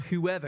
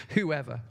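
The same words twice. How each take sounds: First: Whoever stressed and set apart; underlined word. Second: Whoever dropped low like a dull word; boring. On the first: To the congregation, whoever underlined with stress. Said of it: "I want to underline that word". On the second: Mocking the word as boring to the congregation, low and dull. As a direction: say whoever as if it bores you. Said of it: "It sounds a very boring word". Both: Shown as a demonstration.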